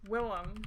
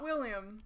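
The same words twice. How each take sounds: First: "Willem" in two syllables, WILL-um; pronunciation shown. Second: "William" with an i-sound before the last syllable; pronunciation shown. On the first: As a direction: drop the y-sound, say "Willem". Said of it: "Not William". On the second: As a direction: say "William" as the English name. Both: Shown as a demonstration.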